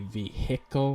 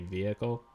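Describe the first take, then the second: First: The H sound in the middle is clearly pronounced. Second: The H sound in the middle is silent. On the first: "like I'll emphasize the H" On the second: "I used to just say vehicle"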